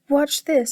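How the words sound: It is said in a big, deep goat voice.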